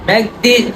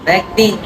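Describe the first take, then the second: Both takes have the same delivery.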